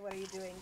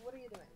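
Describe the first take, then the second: First: It is asked in an accusatory tone. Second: It is asked in a curious, neutral tone.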